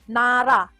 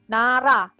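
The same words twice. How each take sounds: The two takes are said the same way.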